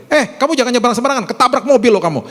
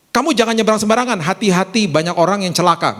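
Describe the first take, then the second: First: High, urgent mock scolding; sharp, high-pitched telling-off; negative parental warning. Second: Quick, milder demonstrated caution; wiser parental warning. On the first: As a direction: imitate a parent snapping a careless threat. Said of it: "Seringkali kita ngomong gini sama anak kita". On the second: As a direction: caution a child without cursing them. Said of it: "Beda kan langsung". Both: Shown as a demonstration.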